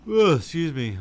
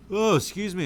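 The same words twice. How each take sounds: First: Real yawn swallowing the words; mid-yawn. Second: A big yawn lifting the voice much higher and louder; real yawn breaking through an apology. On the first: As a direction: excuse me stretched through a big yawn, higher and louder. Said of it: "I don't mean to yawn on you guys". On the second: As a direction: let the yawn pull the words up. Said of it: "I don't mean to keep yawning". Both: Real, not acted.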